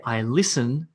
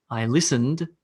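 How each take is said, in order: First: Said in the usual way. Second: Listened with the final d clearly sounded; listened, ending in a distinct d. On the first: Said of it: "there's a little sound change". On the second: Shown as a demonstration. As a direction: finish "listened" on an audible d. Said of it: "All it is is d".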